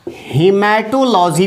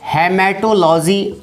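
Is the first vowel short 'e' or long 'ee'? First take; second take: long ee; short e. First: The first vowel is a long 'ee'. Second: The first vowel is a short 'e'. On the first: "कुछ लोग इसको हीमेटोलॉजी भी कहते हैं, ये भी सही है" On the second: "हेमेटोलॉजी याद रखिएगा"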